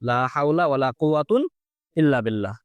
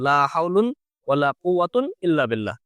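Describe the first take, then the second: First: First noun ends in a, second in un. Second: Both nouns end in un. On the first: "প্রথমটা এই ফাদার উপর মাবনি ধরে, পরেরটা ... দুই পেজ দিয়ে" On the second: "দুটো আমল মুলগাহিন ধরে"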